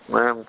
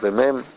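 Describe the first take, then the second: First: It is said with the nose pinched shut. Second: It is said with the nose open normally. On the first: "תסגור את האף, תגיד מם, זה קצת שונה" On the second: "כשהאף שלך פתוח רגיל"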